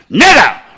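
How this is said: It is said as a forceful command.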